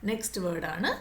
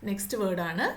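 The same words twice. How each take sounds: No difference in how they are said.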